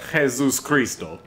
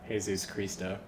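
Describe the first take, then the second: First: It is said in a Russian accent. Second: It is said without a Russian accent.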